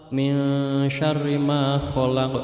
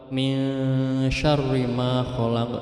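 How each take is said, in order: Both takes have the same delivery.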